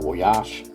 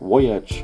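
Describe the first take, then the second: First: The word is said with French-style pronunciation. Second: The word is said with English-style pronunciation.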